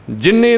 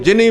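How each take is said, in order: First: ਜਿੰਨੀ said with a doubled ਨ, as in jinn; ਗਲਤ ਉਚਾਰਨ. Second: ਜਿੰਨੀ said with a single plain ਨ, as ਜਿਨੀ; ਮੁਕਤਾ ਉਚਾਰਨ. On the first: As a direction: misread ਜਿੰਨੀ with a held double ਨ. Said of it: "ਜਿੰਨੀ ਨੂੰ ਜਿੰਨੀ ਨਹੀਂ ਪੜ੍ਹਨਾ". (ਜਿੰਨੀ ਦਾ ਨ ਦੂਹਰਾ ਕਰਕੇ ਬੋਲੋ) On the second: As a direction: read ਜਿੰਨੀ without doubling the ਨ. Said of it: "ਮੁਕਤਾ ਪੜ੍ਹਨਾ ਹੈ". (ਜਿੰਨੀ ਨੂੰ ਟਿੱਪੀ ਤੋਂ ਬਿਨਾਂ ਬੋਲੋ) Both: Shown as a demonstration.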